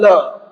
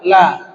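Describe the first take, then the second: First: The vowel is said with a closed mouth. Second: The vowel is said with an open mouth. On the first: The speaker calls it wrong. "bukan la" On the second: The speaker calls it right. "Lah sama dia, terbuka"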